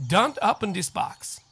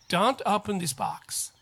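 The two takes are said the same way.

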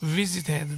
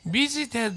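First: The word begins with a v sound. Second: The word begins with a b sound. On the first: The speaker calls it right. "Visited です" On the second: The speaker calls it wrong. "Visited と言うとB の音になってしまいます"

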